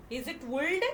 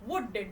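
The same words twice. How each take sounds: First: Would said as woold, L pronounced, rising; wrong way, L sounded. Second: Would said as wood, no L, falling; correct, silent L. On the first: Teacher testing first class children, mock wrong L. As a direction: ask if it's would with a sounded L. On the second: Teacher to first class children, correct silent L. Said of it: "How can we pronounce?". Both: Shown as a demonstration.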